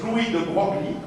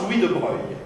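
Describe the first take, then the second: First: "Broglie" read literally, with the g and l sounded; pronounced as spelled. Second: "Broglie" said the French way, like "Broy"; correct French pronunciation. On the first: Physicist showing students the name's spelling, "Broglie" pronounced as written. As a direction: say "Broglie" letter by letter as written, g-l audible. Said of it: "completely different pronunciation than the spelling". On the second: Physicist showing students how the name is pronounced, "Broglie" said as "Broy". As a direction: say "Broglie" with the g and l silent. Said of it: "but it's pronounced".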